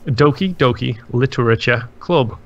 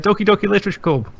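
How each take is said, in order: First: It is said slowly. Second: It is said fast.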